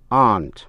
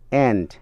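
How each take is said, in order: First: The word is said in a British accent. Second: The word is said in an American accent. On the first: "nếu đọc theo giọng Anh" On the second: "đọc theo tiếng Mỹ"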